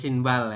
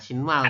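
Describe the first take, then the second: First: The second syllable starts with a 'b' sound. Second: The second syllable starts with an 'm' sound. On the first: The speaker calls it right. "jadi tetap shinbal ya" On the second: The speaker calls it wrong. "bukan shinmal"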